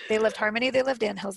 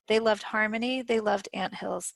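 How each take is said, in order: First: It is read very fast. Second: It is read at a normal pace.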